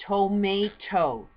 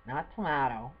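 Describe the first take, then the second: First: Tomato said slowly and loudly as toh-MAY-toh; tomato the right way. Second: Tomato with a flat a, toh-MAH-toh; the wrong tomato. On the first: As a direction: stretch out tomato, MAY in the middle. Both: Shown as a demonstration.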